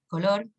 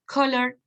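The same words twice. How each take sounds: First: "color" pronounced the Spanish way; Spanish pronunciation. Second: "Color" pronounced the English way; English pronunciation. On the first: Teacher giving the cognate, "color" with Spanish pronunciation. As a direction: say "color" as a Spanish word, stressed on the second syllable. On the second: Teacher listing true cognates, "Color" with English pronunciation. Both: Shown as a demonstration. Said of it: "su escritura o pronunciación en inglés".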